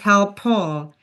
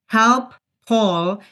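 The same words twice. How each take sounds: First: The shared p sound is said once, words joined. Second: The two words are said separately with a break. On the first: "becomes help Paul" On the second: "Help Paul becomes help Paul"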